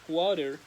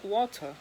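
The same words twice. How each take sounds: First: It is said in an American accent. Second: It is said in a British accent.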